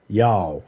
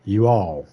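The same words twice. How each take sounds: First: Y'all clipped to a single syllable, yah; y'all, one word. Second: You all said as two separate words, ju ah. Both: Shown as a demonstration. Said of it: "It's combined into one word".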